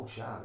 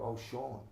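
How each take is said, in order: First: Shan said with a broad "a", like "shahn"; mild mock of people saying Shan correctly; name said right. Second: Sean said as "shawn", the wrong English reading; mock the English reading of Sean as "shawn"; mispronouncing the name. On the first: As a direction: imitate people finally reading Shan right. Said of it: "and people go". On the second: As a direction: imitate people getting Sean wrong. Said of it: "they go".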